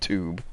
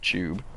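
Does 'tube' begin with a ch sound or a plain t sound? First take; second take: plain t; ch sound. First: The word starts with a plain t sound. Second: The word starts with a ch sound. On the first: The speaker calls it wrong. "not tube" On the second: The speaker calls it right. "like a C H tube"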